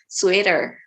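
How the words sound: It is said with a Filipino English pronunciation. "sa atin kasi is sweater"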